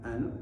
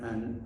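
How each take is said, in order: Both takes have the same delivery.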